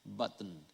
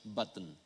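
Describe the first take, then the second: First: It is pronounced the way English speakers do. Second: The same.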